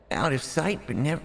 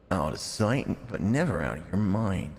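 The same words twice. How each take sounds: First: High, half-hearted cute character voice; Pio-chan voice. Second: Said in the usual way. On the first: Acted. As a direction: try a cute anime girl voice, then give up. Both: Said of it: "I can't do a Pio-chan".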